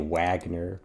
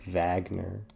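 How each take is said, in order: First: The name is said the plain English way. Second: The name is said the German way. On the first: "I say Wagner" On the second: "like some sort of Yellerman"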